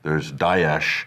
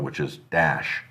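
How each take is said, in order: First: The word has an Arabic-sounding pronunciation. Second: The word has an English-sounding pronunciation. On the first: This is the more accurate original form. "which is more accurate. That's the Arabic one" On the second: This is how one politician says it. "and then there's Obama, which is Dash"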